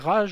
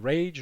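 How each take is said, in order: First: The word is pronounced the French way. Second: The word is pronounced the English way. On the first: "on dit Rage" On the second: "à l'anglaise"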